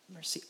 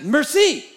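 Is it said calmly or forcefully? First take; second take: calmly; forcefully. First: It is said calmly and gently. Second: It is said forcefully and abruptly.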